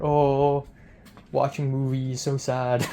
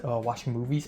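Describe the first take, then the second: First: Imitating a friend poking fun, drawn-out "oh"; lightly mock someone's sad little answer; teasing mock pity. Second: Said in the usual way. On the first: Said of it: "poking fun at me". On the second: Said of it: "I said, "Oh, watching movies".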